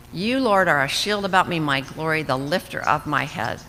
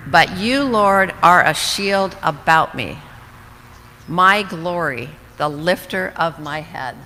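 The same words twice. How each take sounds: First: Said in the usual way. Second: Louder, slow, each phrase proclaimed; emphatic proclamation. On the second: Shown as a demonstration. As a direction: declare it boldly, savoring each phrase. Reading psalm verse aloud with emphasis.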